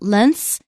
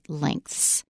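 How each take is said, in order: First: It is said without a K sound. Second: It is said with a K sound. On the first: The speaker calls it wrong. "It's not lengths" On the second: The speaker calls it right. "you heard a K in there, and that's the way to say it right"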